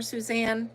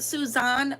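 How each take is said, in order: First: "Suzanne" with a flat a, soo-ZAN; name pronunciation. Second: "Suzanne" with a broad ah, soo-ZAHN; name pronunciation. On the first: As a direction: say "Suzanne" with the a of cat. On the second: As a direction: say "Suzanne" with the open ah vowel. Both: Shown as a demonstration. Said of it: "is it Suzanne or Suzanne".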